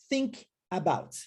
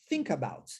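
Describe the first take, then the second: First: A pause separates think and about. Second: Think runs straight into about without pause. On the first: The speaker calls it wrong. "ao invés de eu dizer assim, think about, não há essa pausa" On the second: The speaker calls it right. "eu unifico. Thinka, thinka"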